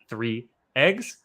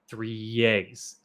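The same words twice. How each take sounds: First: No y sound joins the two words. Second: A y sound links the two words. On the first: The speaker calls it wrong. "not three eggs" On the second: The speaker calls it right. "it's this Y sound"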